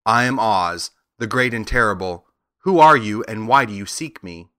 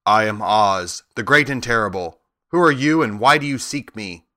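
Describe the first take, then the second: First: A touch of sweetness as the lovely lady; lightly voiced gracious lady on the throne; sweet lady. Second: A hint of the grand giant head; lightly voiced commanding head; great head. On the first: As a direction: introduce herself gently and mildly sweet. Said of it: "looked upon him sweetly and said". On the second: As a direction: announce yourself as the mighty wizard, lightly voiced. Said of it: "not such an awful voice".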